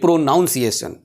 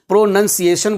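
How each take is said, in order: First: The second syllable sounds like 'noun'. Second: The second syllable sounds like 'nun'. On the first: The speaker calls it wrong. "ना कि प्रोनाउंसिएशन" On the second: The speaker calls it right. "प्रोनंसिएशन बोलते हैं"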